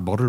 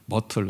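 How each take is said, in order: First: The middle consonant is a soft flapped sound. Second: The middle consonant is a clear t sound. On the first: "미국 사람들 그렇게 발음 안 하고 머를 뭐 이렇게 발음하던데" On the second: "하여튼 우리는 머틀이죠"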